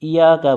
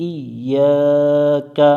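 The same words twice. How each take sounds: First: ইয়াকা with single ya, no tashdid; wrong pronunciation. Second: ইয়াকা slow with the ya doubled; correct pronunciation. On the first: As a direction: say ইয়াকা without doubling the ya. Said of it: "ইয়াকা পড়া যাবে না". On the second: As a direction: stretch ইয়াকা, stressing the doubled ya. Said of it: "ইয়ার তাসদিদটা উচ্চারণ". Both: Shown as a demonstration.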